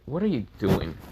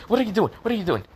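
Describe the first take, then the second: First: Said in the usual way. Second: High, urgent repeated question; flustered protest. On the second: A narrator's reading. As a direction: blurt it twice in a high-pitched fluster. She protests as hair is grabbed.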